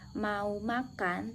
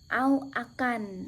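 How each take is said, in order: First: Both words begin with a clear m sound. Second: Both words are said without their initial m. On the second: "anak tersebut mengucapnya au akan"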